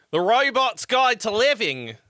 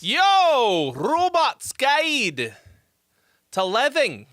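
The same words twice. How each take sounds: First: Put-on joking Utah accent, higher and louder; mock a Utah accent on the show's name. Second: Stretched, higher, louder show announcement; hype title call. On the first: Streamer redoing the show title in a mock Utah accent. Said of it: "In my best Utah accent". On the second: Acted. Streamer opening his show with a big host call. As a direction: belt out the show's name like a host.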